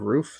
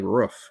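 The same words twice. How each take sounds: First: "roof" said with a long oo as in "moon"; standard "roof". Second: "roof" said with a short vowel as in "book"; American "roof". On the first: Showing the usual way to say "roof". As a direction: stretch the oo in "roof". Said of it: "instead of". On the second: Showing how some Americans say "roof". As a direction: clip "roof" short, like "ruff". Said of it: "say, like". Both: Shown as a demonstration.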